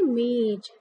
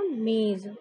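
First: मेज ending in j, "mej"; common j mispronunciation. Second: मेज ending in z, "mez"; dotted z sound. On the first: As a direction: close मेज on j, no z. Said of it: "आप लोग क्या पढ़ लेते हैं". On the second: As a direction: draw out मेज to a buzzing z. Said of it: "उसे पढ़ते हैं जा". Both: Shown as a demonstration.

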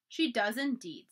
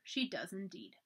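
First: Said in the usual way. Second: Quiet echo. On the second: A narrator's reading. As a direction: murmur it again to himself.

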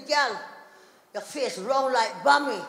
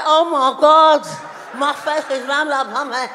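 First: Slow Jamaican husband's remark; Jamaican accent. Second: Loud gushing outburst, slowing at the end; mock exclamation. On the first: Retold or imitated. Husband looking at wife's face, Jamaican accent. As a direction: say it with a Jamaican lilt. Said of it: "my husband's from Jamaica". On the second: Wife repeating husband's remark while walking around, loud exclaiming. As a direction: exclaim it big, then stretch the phrase.

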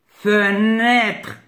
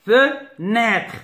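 First: Said in the usual way. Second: "Fenêtre" with a gap after "Fe"; split into syllables. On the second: Shown as a demonstration. Teacher cutting up words for pupils, syllables apart. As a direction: say "Fenêtre" in two detached beats. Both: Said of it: "je découpe les mots".

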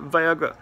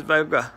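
First: Sheepish mumble on the repeat; embarrassed to say it again; coy, reluctant repeat. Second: Mumbled shyly, a little embarrassed; sheepish coy scammer. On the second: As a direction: say it like you'd rather not. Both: Retold or imitated. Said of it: "he's all coy about it".

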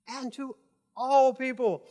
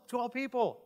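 First: Slow, higher, stretched-out ALL; ALL drawn out for emphasis; stress on ALL. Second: Said in the usual way. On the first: Shown as a demonstration. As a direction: lean hard and long on the word ALL. Repeats verse words for emphasis.

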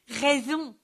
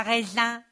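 First: "Raison" said properly, rè-zon; "Raison" with a clear nasal on, setting it right; "Raison" carefully corrected; correct word. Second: "raison" said like raisin, rèzin; "raison" bent into "raisin" as a joke; "raison" with the raisin vowel, teasing; grape pun. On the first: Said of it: "je voulais dire". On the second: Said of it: "rigola Joligrain". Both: A narrator's reading.

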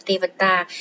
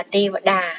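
First: "Tê Vật Tà" with a t sound in the last syllable; spelling pronunciation. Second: "Tê Vật Đà" with a d sound in the last syllable; spoken pronunciation. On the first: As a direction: read "Tê Vật Tà" as spelt, ending in "tà". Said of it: "các bạn sẽ đánh vần là". (đánh vần "Tê Vật Tà", âm cuối là "tà") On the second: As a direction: say "Tê Vật Đà" as read, ending in "đà". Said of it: "khi chúng ta đọc là". (đọc "Tê Vật Đà", âm cuối là "đà") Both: Shown as a demonstration.

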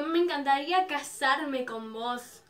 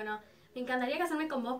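First: Drawn-out retold marriage wish; slow, emphatic confession to an idol; slow proposal. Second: Said in the usual way. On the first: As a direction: stretch out a lovestruck proposal slowly. Fan proposes to idol, then repeats.

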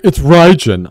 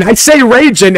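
First: "Raijin" said with RYE as the first syllable; correcting pronunciation. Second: "Raijin" said with RAY as the first syllable; own pronunciation. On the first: Viewers correcting how he says it, "Raijin" as RYE-jin. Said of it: "get on me the way I say Raijin". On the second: Streamer defending his way of saying it, "Raijin" as RAY-jin. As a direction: insist on "Raijin" as RAY-jin, high and loud. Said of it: "the way I say Raijin". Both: Retold or imitated.

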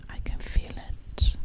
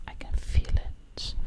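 No difference in how they are said.

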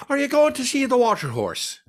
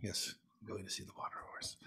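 First: High, bad Cockney accent as the gift shop woman; hammed-up Cockney woman, pitched high. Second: Soft whispered answer, barely voiced; whispered reply. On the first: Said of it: "one of three bad Cockney accents". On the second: His whispered reply to her.

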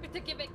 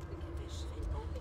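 First: Said in the usual way. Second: Slow, higher whispered plea; frightened whisper. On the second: Real, not acted. Player begging the creature to go away, slow whisper. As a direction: breathe it out, scared to be heard.

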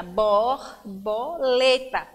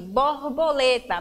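First: "borboleta" slowly split into its syllables. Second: Said in the usual way. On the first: Shown as a demonstration. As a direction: break "borboleta" into bor, bo, le, ta. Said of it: "abri a boca". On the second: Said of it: "quatro vezes".

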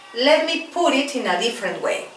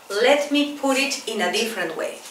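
The two takes are said the same way.

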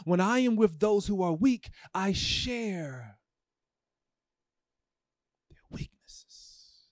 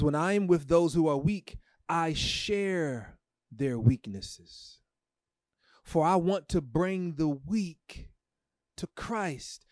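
First: Tearful reading. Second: Reverent reading. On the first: Real, not acted. Preacher rereading the verse to the church, fading to a tearful whisper. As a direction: let the verse break into a whisper. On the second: Acted. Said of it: "The Bible says".

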